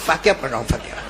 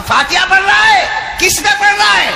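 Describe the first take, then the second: First: Much lower and softer, shrinking answer; a smoker cornered by a jinn answers in fear; scared mumble. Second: Higher, louder booming jinn question; a jinn questions the man at the grave, loud; jinn's challenge. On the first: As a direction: mumble it like a terrified man caught out. Frightened smoker answers softly. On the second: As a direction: demand it like a towering jinn. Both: Acted.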